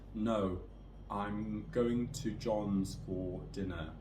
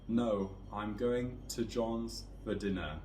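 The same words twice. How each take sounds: First: The small words are said in full forms. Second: The small words are said in weak forms. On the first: "with no intonation and no stress" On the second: "with those weak forms"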